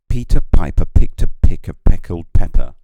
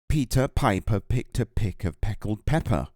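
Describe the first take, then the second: First: The p sounds cause loud pops and peaks. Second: The p sounds are softened without strong pops. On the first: The speaker calls it wrong. "there'll probably be pops and noises where it goes up to um, it goes up to the full volume" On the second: The speaker calls it right. "the volume wasn't, it wasn't reaching as high into the yellow zone. It's cut out a lot of that"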